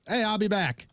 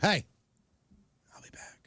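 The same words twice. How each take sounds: First: It is said in a normal voice. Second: It is whispered.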